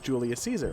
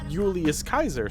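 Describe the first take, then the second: First: Caesar begins with a soft s sound. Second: Caesar begins with a hard k sound. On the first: The speaker calls it wrong. "you don't pronounce Julius Caesar as Julius Caesar" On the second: The speaker calls it right. "Kaiser is actually the correct pronunciation"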